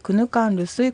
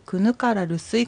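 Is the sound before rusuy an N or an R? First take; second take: N; R. First: The sound before rusuy is an N. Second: The sound before rusuy is an R. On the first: "R が2 つ並ぶと最初のR がN の発音になります" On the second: "ゆっくりと丁寧に発音した場合にはローマ字表記のままの発音でくぬからるすいと発音してもいい"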